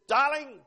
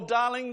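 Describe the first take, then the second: First: The word is said curtly and impatiently. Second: The word is said warmly and tenderly. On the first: The love has become commonplace. "it changes its tone" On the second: The speaker is newly in love. "it's all affectionate"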